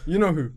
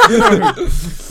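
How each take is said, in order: First: Said in the usual way. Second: High, slow teasing laugh. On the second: Real, not acted. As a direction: drag it out while laughing. Teasing hint at Faisal.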